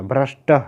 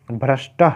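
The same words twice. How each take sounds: First: "भ्रष्टः" repeated with the final visarga breathed out; visarga pronounced. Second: "भ्रष्टः" with a clear breathy visarga at the end; visarga pronounced. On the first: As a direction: finish "भ्रष्टः" on an audible "ह" release. ("भ्रष्टः" विसर्ग के साथ दोहराएँ) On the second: ("भ्रष्टः" का विसर्ग साफ़ बोलें) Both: Shown as a demonstration. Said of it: "आपको भ्रष्ट नहीं बोलना".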